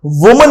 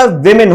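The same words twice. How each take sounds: First: "वुमन" with an oo in the first syllable; the mistaken "वुमन", first vowel rounded; wrong pronunciation. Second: "विमेन" as WIM-in; short i sounds in both syllables of "विमेन"; correct pronunciation. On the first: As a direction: say "वुमन" as WOO-mun. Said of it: "वुमन नहीं होता". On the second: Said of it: "विमेन होता है". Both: Shown as a demonstration.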